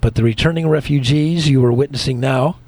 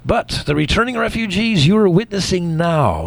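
First: It is read flatly, with little intonation. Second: It is read with lively, expressive intonation. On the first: The speaker calls it wrong. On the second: The speaker calls it right.

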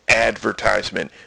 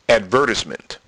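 First: The stress is on the first syllable. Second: The stress is on the second syllable. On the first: "They don't emphasize the ad" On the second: "They emphasize the vert"

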